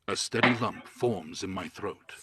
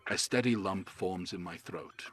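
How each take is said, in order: First: It is said louder, projected like a narration. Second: It is said in a plain, casual speaking voice. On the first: "But narrating" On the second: "if I was just talking normally, that would be that"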